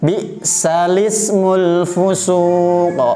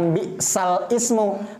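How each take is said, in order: First: The i vowel is joined onto the l. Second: The i vowel starts a separate word. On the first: The speaker calls it right. "Jadi bacanya bi'salismul fusuq" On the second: The speaker calls it wrong. "Bukan bi'sal ismu"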